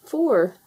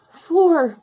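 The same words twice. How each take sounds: First: Said in the usual way. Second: High, loud gasp of alarm. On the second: A narrator's reading. Tufty to the other foxes after counting only four, gasped. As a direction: gasp it out, pitched way up. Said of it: "gasped Tufty".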